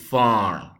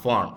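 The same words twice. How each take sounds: First: The vowel is said long. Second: The vowel is said short. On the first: The speaker calls it right. "we are going to pronounce uh, this as a long pronunciation" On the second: The speaker calls it wrong. "It's not farm"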